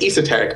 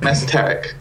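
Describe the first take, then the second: First: "esoteric" with a long ee at the start; alternative pronunciation of esoteric. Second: "esoteric" with a short e at the start; first pronunciation of esoteric. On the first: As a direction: say "esoteric" as ee-so-terric. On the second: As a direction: say "esoteric" as ess-oh-terric. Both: Shown as a demonstration. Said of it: "never sure how to pronounce that word".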